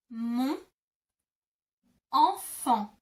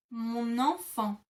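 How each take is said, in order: First: "Mon", a pause, then a louder "enfant"; teacher stressing "enfant" after a pause; broken into syllables. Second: "Mon enfant" glued with an N sound, /mo-nɑ̃-fɑ̃/; slow, joined "Mon enfant" for learners; linked liaison. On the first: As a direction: split "Mon … enfant" with a gap. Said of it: "you would say". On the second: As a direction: run "Mon" straight into "enfant". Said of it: "you kind of glue the two together". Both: Shown as a demonstration.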